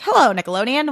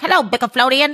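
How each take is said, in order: First: Higher, cute little character answering the phone; lightly voiced eager little creature; Tiny Chef. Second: Higher, louder cute voice garbling "Bicaflodian"; Tiny Chef. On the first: Little chef takes a call from the network, lightly imitated in a higher voice. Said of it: "He gets a call and he's like". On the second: Retold or imitated. Little chef answering the network's call, garbling "Bicaflodian" with a speech impediment. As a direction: imitate a tiny character mangling "Bicaflodian" with muddled consonants. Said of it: "speech impediment".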